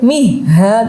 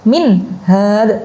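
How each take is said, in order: First: The n sound is dropped and blurred. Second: The n sound is pronounced clearly without nasal hum. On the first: The speaker calls it wrong. "tidak boleh" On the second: The speaker calls it right. "Harus dibaca jelas, harus dibaca izhar"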